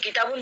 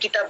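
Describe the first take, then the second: First: The word ends with a nasal -un ending. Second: The word ends on a bare final consonant. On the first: This is the full, formal form. "তানবিন pronunciation" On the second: This is the informal form. "জাজম দিয়ে"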